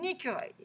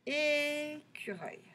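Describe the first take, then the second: First: Said in the usual way. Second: Écureuil softer and higher, first É held long; drawn-out syllables. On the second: Shown as a demonstration. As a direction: slowly sound out Écureuil with a sustained É. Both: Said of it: "on va chercher tous les mots".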